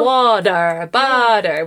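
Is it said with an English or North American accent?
North American. It is said with a North American accent.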